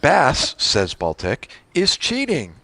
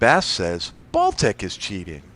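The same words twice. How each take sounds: First: There are pauses after 'Bass' and after 'Baltic'. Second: It runs on with no pause after 'Baltic'.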